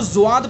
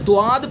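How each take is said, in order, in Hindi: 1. इसकी शुरुआत z जैसी ध्वनि से होती है। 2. इसकी शुरुआत सामान्य d ध्वनि से होती है। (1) "जुआद पढ़ेंगे तो फिर जा के मुशाबे हो जाएगा" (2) "द्वाद पढ़ेंगे तो दाल के मुशाबे हो जाएगा"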